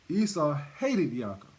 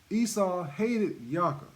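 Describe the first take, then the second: First: Said in the usual way. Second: Esau hated Yaakov said slowly, each word weighted; slow emphatic repeat. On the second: Shown as a demonstration. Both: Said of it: "I hope that's sinking in".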